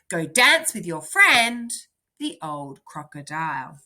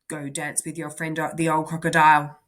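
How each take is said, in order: First: It has a short pause after friend. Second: It runs on quickly with no pause after friend. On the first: The speaker calls it right. "I'm going to try it again" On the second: The speaker calls it wrong. "Did I read a bit fast then? ... I didn't pay attention to the comma here"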